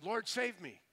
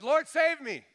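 First: Higher-pitched quick cry for help; mild cry of a sinking man; plea for rescue. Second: Loud, high shout for rescue; desperate cry. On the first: Peter sinking in the sea calls to the Lord, mild plea. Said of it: "he was sinking in the sea". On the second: Sinking Peter cries unto God, desperate shout. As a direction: cry out from the heart as if drowning. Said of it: "just that heart's cry unto God". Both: Retold or imitated.

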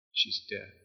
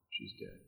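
First: Hushed whisper; preacher echoing the news in a whisper. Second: Breathless whisper; whispered news. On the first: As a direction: let it sink in, whispering. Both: Acted.

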